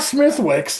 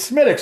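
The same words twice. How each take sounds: First: The name is sounded out fully as spelled. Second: The name is said in a shortened, reduced form. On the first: The speaker calls it wrong. "it's not Smithwick's" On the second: The speaker calls it right. "it's Smithwick's"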